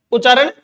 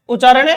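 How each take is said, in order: Both takes have the same delivery.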